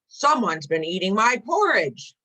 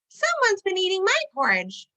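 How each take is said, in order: First: It is said in a loud roar. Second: It is said in a high squeak.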